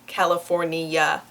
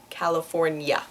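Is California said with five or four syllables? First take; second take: five; five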